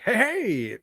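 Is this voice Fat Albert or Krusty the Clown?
Krusty the Clown. It is said in a Krusty the Clown voice.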